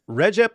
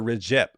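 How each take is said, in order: First: Recep said REH-jep; first-syllable stress. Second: Recep said ri-JEP; second-syllable stress. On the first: Host asking which is correct, Recep as REH-jep. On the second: Host offering the other option, Recep as ri-JEP. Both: Shown as a demonstration. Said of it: "is it Recep or Recep".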